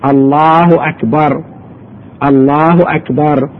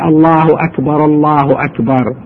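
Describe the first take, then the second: First: Each phrase is said separately with a pause between. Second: The two phrases run together without a pause. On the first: "وحدة وحدة لا يلزقها" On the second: "لو لزقها ما في إشكال"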